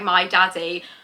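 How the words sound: It is said in an English accent.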